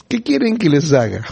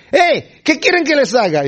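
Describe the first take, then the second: First: Said in the usual way. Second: High-pitched acted holler; grito desde lejos. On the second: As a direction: call out as if across a distance. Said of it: "les gritó desde allá". (grito imitado, agudo, desde lejos)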